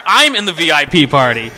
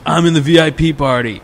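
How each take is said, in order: First: I'M punched high and loud; mock outrage, hitting I'M hard; indignant stress on I'M. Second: Raised, loud phone answer; boastful drunk friend. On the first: Buddy's indignant retort, stressing I'm. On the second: Retold or imitated. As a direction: imitate a tipsy buddy proudly announcing.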